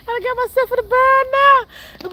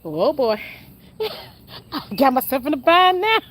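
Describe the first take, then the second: First: Said in the usual way. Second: Partner's line, breaking into laughter; retold through laughter; laughing imitation. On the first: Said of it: "retelling partner's line". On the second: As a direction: imitate him while cracking up. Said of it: "That man said".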